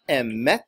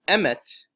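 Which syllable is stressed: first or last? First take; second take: last; first. First: The stress is on the last syllable. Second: The stress is on the first syllable. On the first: The speaker calls it right. "on the last syllable, which is called milarah" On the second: The speaker calls it wrong. "mila'el, with the emphasis on the first syllable"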